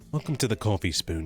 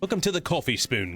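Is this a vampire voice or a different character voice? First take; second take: vampire; different character. First: Spoken in a put-on vampire character voice. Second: Spoken in a different put-on character voice. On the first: The speaker calls it right. "Vampire voice" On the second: The speaker calls it wrong. "Maybe I'd make Ignis"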